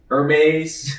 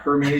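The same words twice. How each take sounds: First: The starting H sound is silent. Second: The starting H sound is pronounced. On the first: The speaker calls it right. "that is pronounced Hermes" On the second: The speaker calls it wrong. "not Hermes"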